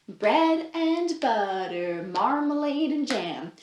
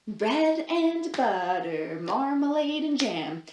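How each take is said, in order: The two takes are said the same way.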